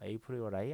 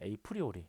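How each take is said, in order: First: The final syllable ends with an 'eye' sound. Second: The final syllable ends with an 'ee' sound. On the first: The speaker calls it right. "정확하게는 에이프리오라이예요" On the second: The speaker calls it wrong. "저희 발음이 좀 안 좋아요"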